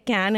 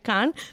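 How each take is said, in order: First: The name is said the American way. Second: The name is said the French way. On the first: The speaker calls it wrong. "So Americans say Cannes" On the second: The speaker calls it right. "It's actually Cannes"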